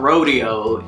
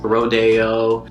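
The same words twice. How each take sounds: First: Said as the common English word rodeo. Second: Said the local way, differing from the first. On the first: The speaker calls it wrong. "it's not rodeo" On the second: The speaker calls it right. "it's rodeo"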